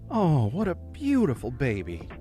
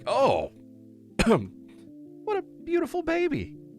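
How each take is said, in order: First: It sounds warm and sincere. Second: It sounds shocked and surprised. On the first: The speaker loves the baby and finds it beautiful. "it sounds, you know, fairly genuine" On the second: The speaker is startled by the baby. "you're showing shock"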